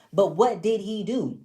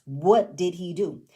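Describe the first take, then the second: First: Said in the usual way. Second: Slower "What did he do", each word weighted; "What did he do" drawn out for emphasis, ending on a fall; emphasized question. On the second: Shown as a demonstration.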